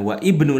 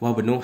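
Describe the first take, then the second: First: The vowel of ibnu is pronounced separately. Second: The vowel of ibnu is dropped, linking wabnu. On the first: The speaker calls it wrong. "Jadi bukan wa ibnu lagi" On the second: The speaker calls it right. "Kalau sudah di tengah seperti ini bacanya wabnu"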